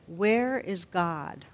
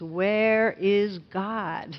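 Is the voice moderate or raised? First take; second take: moderate; raised. First: It is said at a moderate volume. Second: It is said in a loud, raised voice.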